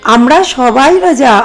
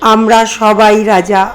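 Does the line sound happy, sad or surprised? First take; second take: happy; sad. First: It is read in a happy, joyful tone. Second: It is read in a sad, sorrowful tone. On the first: "খুব খুশি হয়ে লাইনটা আপনি read করুন" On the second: "দুঃখের সাথে পড়েন"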